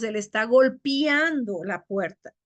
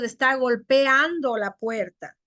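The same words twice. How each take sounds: First: "golpeando" said as golpiando; hiatus made diphthong. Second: Said in the usual way. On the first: Shown as a demonstration. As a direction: close e to i in "golpeando". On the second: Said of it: "no decimos".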